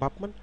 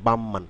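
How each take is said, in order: First: A p sound comes before the m. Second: An m sound comes before the m. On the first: "আসলে কি বাপমান শব্দটি" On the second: "হবে বামমান"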